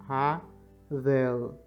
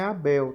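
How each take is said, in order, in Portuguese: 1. Começa com H e tem V. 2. Começa com vogal e tem B. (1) "É Havel" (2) "no hebraico, a pronúncia não é Abel"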